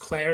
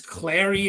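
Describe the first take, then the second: First: The final E is silent, one syllable. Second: The final E is pronounced as a syllable. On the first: The speaker calls it wrong. "It's not just Claire" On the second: The speaker calls it right. "you actually pronounce like the E there"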